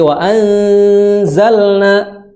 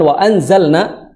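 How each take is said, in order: First: The nasal before the z is held long. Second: The nasal before the z is cut short. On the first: The speaker calls it right. "tapi wa anzalna, ditahan dengan suara gunnah" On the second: The speaker calls it wrong. "jangan wa anzalna"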